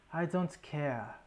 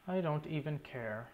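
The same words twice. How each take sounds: First: Lightly imitated African accent, slow; a slow hint of T'Challa's African accent. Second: Said in the usual way. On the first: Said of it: "however that African accent goes". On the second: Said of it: "As T'Challa says".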